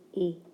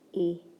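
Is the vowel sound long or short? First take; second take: short; short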